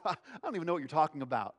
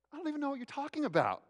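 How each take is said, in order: First: Brushing it off quickly; fast, dismissive disclaimer; quick denial. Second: Very high, quick protest of innocence; protesting denial. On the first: Peter answering the servant girl, quick denial. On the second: Peter denying he knows Jesus, high-pitched protest. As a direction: squeal out a hurried denial. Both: Acted.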